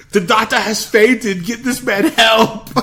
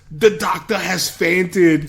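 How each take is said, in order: First: High, slow, loud mock-alarm; hammed-up Arnold. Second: Mock Arnold line. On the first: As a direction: announce the fainting with fake concern. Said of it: "and he goes". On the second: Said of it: "But when he goes".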